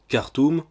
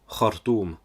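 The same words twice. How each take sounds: First: It begins with a plain hard K sound. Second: It begins with a throaty, scraped kh sound. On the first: The speaker calls it wrong. "ou encore Khartoum" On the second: The speaker calls it right. "pour Khartoum"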